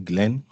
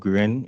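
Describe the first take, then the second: First: The name is said with a clear L sound. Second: The name is said with an R sound, Japanese-style.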